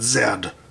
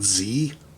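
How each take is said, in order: First: The letter is said the Canadian way, 'zed'. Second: The letter is said the American way, 'zee'.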